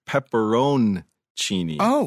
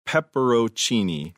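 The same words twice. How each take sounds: First: The N sound is clearly pronounced. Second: The N sound is not clearly pronounced. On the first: The speaker calls it right. "the correct pepperoncini, where the N is pronounced" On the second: The speaker calls it wrong. "you say pepperoncini"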